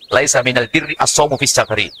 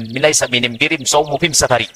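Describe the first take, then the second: First: The article is pronounced with an l sound. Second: The article is pronounced with an m sound.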